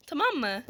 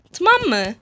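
First: "Tamam mı" said softly, falling; hushed plea. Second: "Tamam mı" pitched higher, falling at the end; insistent repeat. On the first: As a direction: ask it very softly. First, quieter plea to monster. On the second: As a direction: press "Tamam mı" more firmly. Repeats plea more forcefully. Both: Real, not acted.

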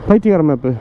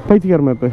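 The two takes are said the same way.

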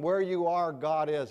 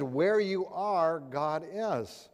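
First: Said in the usual way. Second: Where you are said slowly, each word weighed; slow deliberate repeat. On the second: Shown as a demonstration. Repeating it to Warren who missed it, slow and deliberate.

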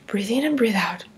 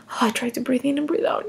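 First: Unvoiced whisper, lower and softer; whispered breathing cue. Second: Said in the usual way. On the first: Mother whispering to herself to stay calm.

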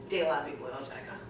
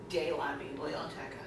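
The two takes are said the same way.

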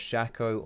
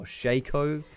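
First: "Shaco" as SHACK-oh; short-a pronunciation. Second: "Shaco" as SHAY-koh; long-a pronunciation. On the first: Streamer offering American viewers one option, short-a pronunciation. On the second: Streamer offering American viewers the other option, long-a pronunciation. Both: Shown as a demonstration. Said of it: "deciding how to pronounce it".

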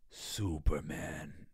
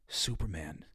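First: Low, very slow robot giant; slow, low, reverent giant saying its hero's name; Iron Giant voice. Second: Said in the usual way. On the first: Retold or imitated. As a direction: draw it out deep like the gentle giant robot. Voicing the Iron Giant's line.

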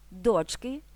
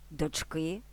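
First: ДОЧки, first syllable stressed; "Дочки" accented at the start. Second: ДочКИ, final syllable stressed; "Дочки" accented on the ending; stress on last syllable. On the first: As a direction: hit ДОЧ in "Дочки". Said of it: "на перший склад". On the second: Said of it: "на останньому складі". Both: Shown as a demonstration.

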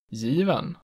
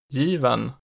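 First: Given rising to a peak just after the first vowel; delay the peak in given, then fall; type one B accent two. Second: Given rising to a peak on the first vowel, then falling; type one B accent one. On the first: Teacher showing regional tones, given in accent two. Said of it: "just after it in accent two". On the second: Teacher showing regional tones, Given in accent one. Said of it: "peaking on the stressed vowel in accent one". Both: Shown as a demonstration.

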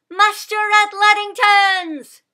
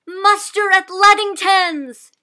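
First: Slow, much louder and higher call; crying out. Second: Slow, much louder and higher call; shouting. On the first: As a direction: call out to wake the farm. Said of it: "Sybil cried". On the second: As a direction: rouse the whole farm. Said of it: "she shouted". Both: A narrator's reading.

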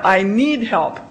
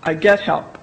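First: "need" leaned on as the rejected wording; wrong phrasing. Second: "get" stressed, low and settled. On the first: Teacher showing marketers the wrong phrase, stressing "need". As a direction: say "I need help" as the phrase to avoid. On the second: Teacher showing marketers the right phrase, stressing "get". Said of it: "Get help, that's what's going on". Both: Shown as a demonstration.

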